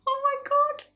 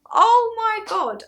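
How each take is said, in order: First: High, whispery gasp of disbelief; shocked whisper. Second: Loud, high, drawn-out amazement; amazed exclamation. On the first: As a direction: squeak it under the breath. Retold shock, first take. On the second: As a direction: cry it out slowly in astonishment. Retold shock, second take. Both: Retold or imitated.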